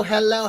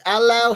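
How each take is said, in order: First: Said in the usual way. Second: Put-on British "Hello" with the H dropped; British accent. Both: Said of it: "He's real British in the first hello".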